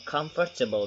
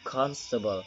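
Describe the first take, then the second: First: All sounds, including m and f, are pronounced. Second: Some sounds are dropped, so it is shorter. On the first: "some non-native speaker perhaps will pronounce it" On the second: "we delete all those words, just like constable"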